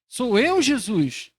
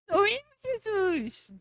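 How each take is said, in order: First: It is asked as a sincere question. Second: It is said in a mocking, sarcastic tone.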